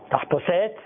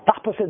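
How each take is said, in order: First: It is stressed like French. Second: It is stressed like Hungarian or Persian. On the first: "זה בצרפתית" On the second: "זה בהונגרית או בפרסית"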